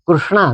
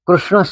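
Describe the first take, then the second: First: The word ends with a long 'aa' vowel. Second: The word ends without a long final vowel. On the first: It names a dark woman or Draupadi. The speaker calls it wrong. "કૃષ્ણા નહીં" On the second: It names Lord Krishna. The speaker calls it right. "કૃષ્ણ શબ્દ વાપરવો જોઈએ"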